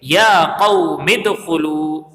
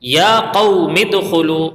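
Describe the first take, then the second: First: یا قوم ادخلوا run together very slowly, hamza of ادخلوا silent; teacher modelling the joined reading of یا قوم ادخلوا; correct reading. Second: یا قوم ادخلوا read slowly, with the hamza of ادخلوا sounded; teacher reading یا قوم ادخلوا; Arabic example. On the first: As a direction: link یا قوم ادخلوا smoothly without the hamza. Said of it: "تو ہم اس کو پڑھیں گے". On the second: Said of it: "مثال". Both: Shown as a demonstration.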